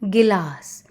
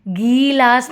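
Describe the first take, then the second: First: The first vowel is said short. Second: The first vowel is said long. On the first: The speaker calls it right. "छोटी मात्रा का sound छोटा रहता है" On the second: The speaker calls it wrong. "गीलास नहीं बोलेंगे"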